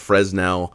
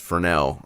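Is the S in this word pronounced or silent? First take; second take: pronounced; silent. First: The S in the middle is pronounced. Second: The S in the middle is silent. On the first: The speaker calls it wrong. "some people call it a Fresnel" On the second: The speaker calls it right. "the correct correct pronunciation is Fresnel. I think the S is kind of silent there"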